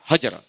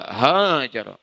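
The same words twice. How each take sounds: First: The first vowel is short and quick. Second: The first vowel is drawn out long.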